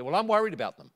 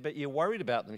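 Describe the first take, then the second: First: Higher, louder worried retort; raised, emphatic comeback; agitated insistence. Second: Said in the usual way. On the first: Retold or imitated. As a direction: imitate an upset neighbour insisting back. Neighbour's agitated insistence in reply.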